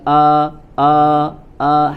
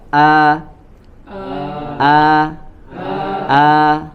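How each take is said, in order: First: The vowel is heavy and thick. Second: The vowel is light and thin. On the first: The speaker calls it wrong. "jangan dibaca tebal, jangan a a a" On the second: The speaker calls it right. "A-nya tipis. Coba a a a"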